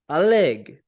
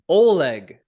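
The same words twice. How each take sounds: First: The stress is on the last syllable. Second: The stress is on the first syllable.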